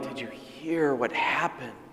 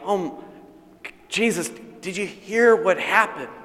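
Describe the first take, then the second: First: It is said in a sad, mournful tone. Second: It is said in a shocked, startled tone.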